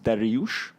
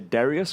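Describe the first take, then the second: First: The name ends with a sh sound. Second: The name ends with a plain s sound. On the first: This is the original form of the name. "it's actually a Persian name called. It's pronounced Dariush" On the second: This form is easier for most people to say. "we say Darius because it's just easier for people to say it"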